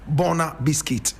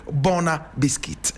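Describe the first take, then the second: The two takes are said the same way.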